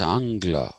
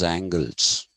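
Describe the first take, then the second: First: The word ends with an open 'a' vowel. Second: The word ends with an 'les' sound. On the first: The speaker calls it right. "It's Angla" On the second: The speaker calls it wrong. "The Americans pronounce them as angles. it's a terrible pronunciation"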